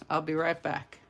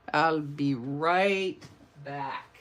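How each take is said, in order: First: Said in the usual way. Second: Slow, stretched RIGHT and BACK; drawn-out repeat. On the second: Pretend. Host playfully repeats her sign-off before going off screen, drawn out. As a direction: draw it out slowly and playfully. Replays the phrase, leading into Arnold.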